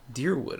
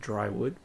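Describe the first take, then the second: First: The first syllable sounds like 'deer'. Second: The first syllable sounds like 'dry'. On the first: The speaker calls it right. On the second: The speaker calls it wrong.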